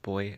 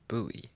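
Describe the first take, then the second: First: It is said as one syllable, like boy. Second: It is said as two syllables, like boo-ee. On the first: This is the British pronunciation. "In the U K, it's pronounced boy" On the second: This is the American pronunciation. "Americans pronounce it as buoy"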